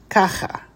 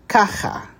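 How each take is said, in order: Both takes have the same delivery.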